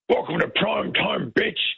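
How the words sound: It is said in a warmed-up synthesised voice.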